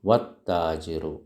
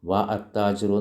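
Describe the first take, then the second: First: The words run together with no vowel after wa. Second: A separate vowel is sounded after wa. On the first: The speaker calls it right. "വാ വന്നാലോ ഹംസത്തുൽ വസ്ൽ ഉച്ചരിക്കില്ല" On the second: The speaker calls it wrong. "എന്ന് പറഞ്ഞു ഇല്ല"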